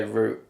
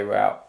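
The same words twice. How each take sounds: First: "route" said like "root"; own pronunciation. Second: "route" said like "rout"; American pronunciation. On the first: Reactor gives his own way of saying it, "route" as "root". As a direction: rhyme "route" with "boot". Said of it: "I'd say route". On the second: Reactor shows viewers their way of saying it, "route" as "rout". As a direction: rhyme "route" with "out". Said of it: "you say route". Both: Shown as a demonstration.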